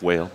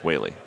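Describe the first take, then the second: First: The name is said as one syllable. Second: The name is said as two syllables. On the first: The speaker calls it wrong. "It does look on the screen W A L E, I like whale" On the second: The speaker calls it right. "but it's pronounced Whaley"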